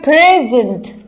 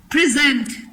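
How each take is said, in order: First: present with the stress on the first syllable, PREZ-ent. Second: present with the stress on the second syllable, pri-ZENT. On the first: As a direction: hit the start of "present", as in the noun for a gift. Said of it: "first syllable पे stress दिया". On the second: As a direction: hit the end of "present", as in the verb. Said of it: "second syllable पे stress आया". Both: Shown as a demonstration.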